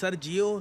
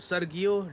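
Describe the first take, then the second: First: The middle consonant is a soft j sound. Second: The middle consonant is a hard g sound. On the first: "इसकी दो pronunciation होती हैं" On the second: "मैं for the time being बस सर्गियो बोल रहा हूँ"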